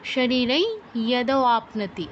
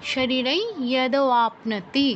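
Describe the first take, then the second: The two takes are said the same way.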